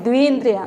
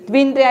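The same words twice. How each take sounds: First: The first vowel is held long. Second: The first vowel is said short. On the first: The speaker calls it right. "जहाँ पर दीर्घ होता है ना उसकी दो मात्रा उच्चारण काल होना चाहिए" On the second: The speaker calls it wrong. "ऐसा नहीं"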